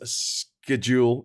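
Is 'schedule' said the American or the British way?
American. It is said in an American way. The speaker calls it wrong. "pronouncing schedule as schedule"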